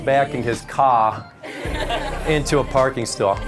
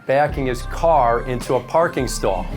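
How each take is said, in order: First: It is said in a Boston accent. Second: It is said in a general American accent.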